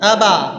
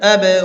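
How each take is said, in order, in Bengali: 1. b-এর পরের প্রতিধ্বনি a-এর মতো শোনায়। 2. b-এর পরের প্রতিধ্বনিতে মাঝামাঝি স্বর আছে। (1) "জবর হয়ে গেল" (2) "মাঝামাঝি"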